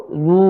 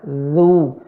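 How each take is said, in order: First: ZU said wrongly with lips rounded before the consonant; lips pursed too early. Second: ZU with lips rounding together with the consonant; lips rounded simultaneously. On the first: Teacher showing the mistake, ZU with lips pursed first. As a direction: pout first, then say ZU. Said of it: "jangan ngonyong dulu". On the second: Teacher showing the correct way, ZU with lips and tongue together. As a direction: round the lips only as ZU sounds. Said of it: "ya, bersamaan". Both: Shown as a demonstration.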